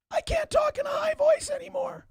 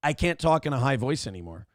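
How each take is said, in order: First: Very high strained falsetto, "voice" straining; high voice attempt. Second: Said in the usual way. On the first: Shown as a demonstration. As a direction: say it all in a squeaky falsetto.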